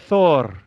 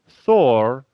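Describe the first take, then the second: First: The name is pronounced the Icelandic way. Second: The name is pronounced the American way. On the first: "here in Iceland we say" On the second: "in America they say"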